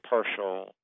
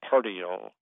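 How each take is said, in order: First: The middle consonant is an sh sound. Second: The middle consonant is a t sound. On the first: The speaker calls it right. "often a T-I can be pronounced as, or is, you would say partial" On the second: The speaker calls it wrong. "not partial"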